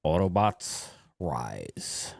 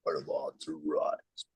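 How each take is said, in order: First: Low, slow robot leader voice; slow, deep heroic robot declaration. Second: Deep robot voice. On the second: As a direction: lower and softer robot leader voice. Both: Acted. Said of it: "you sound like the two freaking robots".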